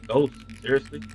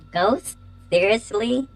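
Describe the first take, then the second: First: It is said in the speaker's own voice. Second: It is said in a put-on character voice.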